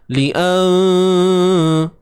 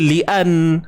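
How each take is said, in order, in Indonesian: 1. n di akhir disembunyikan dalam dengung sengau. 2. n di akhir dibunyikan penuh dan jelas. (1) "jangan sebut tepat" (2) "itulah bunyi tepat"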